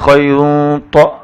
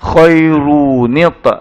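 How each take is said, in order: First: The n is nasalized, then the t bounces. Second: The n links to the t with an i vowel. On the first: The speaker calls it wrong. "baca qalqalah pula dekat ta tu. Lepas tu tanwin pun dengung pula" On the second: The speaker calls it right. "tuan-tuan letak gantikan dengan nun baris bawah"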